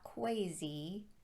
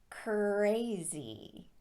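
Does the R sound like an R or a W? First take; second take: W; R. First: The R is said like a W. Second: The R is said as a clear R. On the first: The speaker calls it wrong. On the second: The speaker calls it right.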